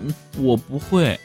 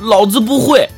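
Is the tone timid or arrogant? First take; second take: timid; arrogant. First: It is said weakly and timidly. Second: It is shouted loudly and arrogantly.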